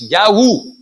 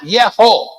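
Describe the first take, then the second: First: The vowels are a then u. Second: The vowels are e then o. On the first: The speaker calls it right. "pronounced Yahu" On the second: The speaker calls it wrong. "not Yeho"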